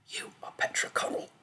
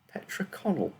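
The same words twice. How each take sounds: First: Voiceless whisper of a voice in her head; inner voice whisper. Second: Put-on hesitant, higher, with a light French accent. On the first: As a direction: breathe it as a thought in her mind. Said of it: "the girl thought". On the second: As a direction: offer the name unsure, a touch of French. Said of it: "she added hesitantly, her French accent becoming more distinct". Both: A narrator's reading.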